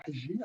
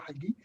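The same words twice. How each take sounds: First: Hagi pronounced the Arabic way; Arabic pronunciation. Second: Said in the usual way. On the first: Shown as a demonstration. Panelist introducing himself gives his surname, Hagi in Arabic pronunciation. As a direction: say Hagi as an Arabic speaker would. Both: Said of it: "as we pronounce it in Arabic".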